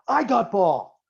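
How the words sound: It is said in a loud, aggressive tone. The speaker calls it right. "Aggressive language, like you're going to attack"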